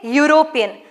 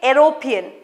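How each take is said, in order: First: It begins with a Y sound. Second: It begins with a plain vowel sound. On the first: The speaker calls it right. "we say European. So, E is pronounced it as Y" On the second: The speaker calls it wrong. "we don't say European"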